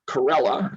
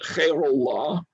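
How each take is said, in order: First: The name is said with an American pronunciation. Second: The name is said with a Persian pronunciation. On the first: "That's how the Americans pronounced his name" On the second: "the Persians pronounce it"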